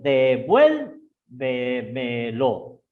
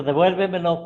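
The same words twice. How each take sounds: First: "devuélvemelo" very slow, VUEL stretched and raised; syllable by syllable. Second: Said in the usual way. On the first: Shown as a demonstration. Teacher showing where the tono de voz falls, syllable by syllable. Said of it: "Esdrújula tiene el tono, el tono de voz". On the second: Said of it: "Por ejemplo".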